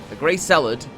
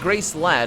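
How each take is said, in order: First: The second word has two full syllables. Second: The second word is squeezed into one syllable. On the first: The speaker calls it right. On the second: The speaker calls it wrong.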